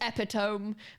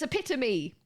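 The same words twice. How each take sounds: First: The final e is silent, ending like 'tome'. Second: The final e is pronounced as a syllable. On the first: The speaker calls it wrong. "You do not pronounce this epitome" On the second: The speaker calls it right. "if there's an E on the end, you actually say the E"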